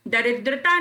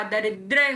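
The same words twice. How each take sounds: First: दरिद्रता with a final "taa"; the mistaken form दरिद्रता; wrong long form. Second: दरिद्र ending on "dra"; no "-taa" at the end of दरिद्र; the accepted form दरिद्र; correct short form. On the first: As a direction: add "-taa" after "daridra" in दरिद्रता. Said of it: "दरिद्रता नहीं होता". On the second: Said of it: "दरिद्र होता है". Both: Shown as a demonstration.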